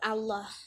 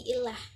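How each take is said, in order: First: The word begins with an 'a' sound. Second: The word begins with an 'i' sound. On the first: The speaker calls it right. "Allah itu dibacanya tetap Allah" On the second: The speaker calls it wrong. "bukan menjadi ilah"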